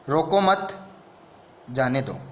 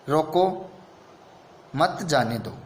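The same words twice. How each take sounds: First: There is a pause right after 'mat'. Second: There is a pause right after 'roko'. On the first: Do not stop the person; let them go. "दूसरा रोको मत, मतलब उसको रोको मत, जो जा रहा है उसको जाने दो" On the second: Stop the person and do not let them go. "देखो रोको यानी रोक लो, मत जाने दो जाने मत दो।"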